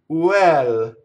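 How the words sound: It is said with an Italian accent.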